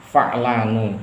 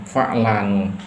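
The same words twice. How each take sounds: The two takes are said the same way.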